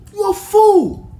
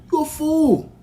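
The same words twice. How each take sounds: First: Much higher and louder furious shout; angry shout. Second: Higher, sharper put-down; firm rebuke. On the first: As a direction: explode at him. Heated rant at critic. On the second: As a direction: call him a fool with force. Scolding the critics. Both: Real, not acted.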